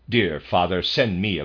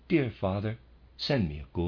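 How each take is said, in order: First: It is said in a curt, rude tone. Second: It is said in a soft, gentle tone. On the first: The writer is making a demand. "in a peremptory, rude tone of voice" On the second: The writer is asking kindly. "in a gentle, quiet tone"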